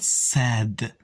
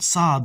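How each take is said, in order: First: The first consonant sounds plain and light. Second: The first consonant sounds deep and emphatic. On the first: The speaker calls it wrong. "not sad" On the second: The speaker calls it right. "with a deeper sound"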